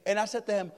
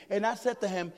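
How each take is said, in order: Both takes have the same delivery.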